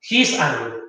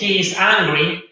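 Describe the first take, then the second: First: He and is merge into one short syllable. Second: He and is are said as two separate words. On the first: "acorto esa i" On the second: "En lugar de decir eh"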